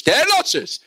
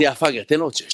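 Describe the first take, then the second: First: High, urging gym yell; coach's shout. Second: Said in the usual way. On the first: Retold or imitated. Coach demanding six more reps, high shouting. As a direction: yell the demand with pitch jumping up. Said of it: "והוא צועק לו".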